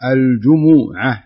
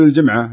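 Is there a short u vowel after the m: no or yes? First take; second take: yes; no. First: The m is followed by a short u vowel. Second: The m is followed by no vowel. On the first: This is the form used when reciting the Quran. The speaker calls it right. "الضمة على الميم" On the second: This is the everyday spoken form. The speaker calls it wrong. "لا تقول الجمعة"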